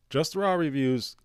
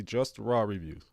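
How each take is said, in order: First: "Just Raw reviews" hammered home as the correction; emphatic correction. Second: Said in the usual way. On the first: Shown as a demonstration. To viewers, correcting the news, stressing "Raw". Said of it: "Wait a minute. Take it easy". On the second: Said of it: "Take it easy".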